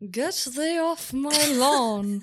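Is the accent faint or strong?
strong. It is said with a stronger put-on accent. "lean into it a little bit more"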